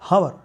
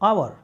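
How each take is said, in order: First: The word starts with an h sound. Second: The word starts with a vowel sound. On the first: The speaker calls it wrong. "हम sometime mistake करते हैं और कहते हैं हावर, not." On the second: The speaker calls it right. "The correct pronunciation is आवर"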